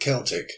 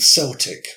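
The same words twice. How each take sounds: First: It begins with a hard K sound. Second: It begins with a soft S sound. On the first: The speaker calls it right. "the correct pronunciation is Celt and Celtic" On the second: The speaker calls it wrong. "you might say Celts and Celtic"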